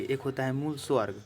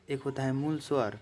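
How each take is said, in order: First: मूल स्वर्ग with an extra g sound at the end; fumbled word स्वर्ग, ending in g; slip of the tongue. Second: Said in the usual way. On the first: Real, not acted. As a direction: says स्वर्ग instead of स्वर by mistake.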